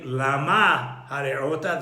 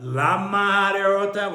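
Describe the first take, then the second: First: Lama with stressed MA, set apart from hare'ota; stress on last syllable. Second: Lama hare'ota run together, losing the H of hare'ota; Hey swallowed. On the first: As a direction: stress MA, then sound the H of hare'ota. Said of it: "and now become Melera". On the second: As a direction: blend Lama into hare'ota so the H vanishes. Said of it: "where you might lose the Hey". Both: Shown as a demonstration.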